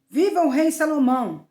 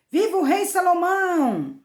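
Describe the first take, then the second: First: Raised, louder royal acclamation; proclaimed shout. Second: Crowd's shout. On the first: King Davi ordering what to shout, proclaiming loudly. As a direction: call it out higher and louder, briefly. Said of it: "e gritem". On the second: All the people hailing the new king, shouting. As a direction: cry it out like a whole crowd, stretching the end. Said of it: "todo o povo gritou". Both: A narrator's reading.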